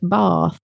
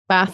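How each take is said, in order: First: The vowel is long, as in a southern accent. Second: The vowel is short, as in a northern accent.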